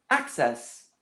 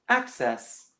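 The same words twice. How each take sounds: The two takes are said the same way.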